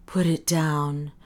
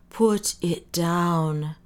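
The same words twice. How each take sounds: First: Slow choked plea. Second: Very slow choked repeat; more choked. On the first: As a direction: strain it out, throat tight. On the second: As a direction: drag it out, barely holding on. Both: A narrator's reading. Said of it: "said the doctor in a choked voice".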